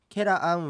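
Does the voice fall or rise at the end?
fall. The pitch stays level or falls at the end. It states that something is delicious.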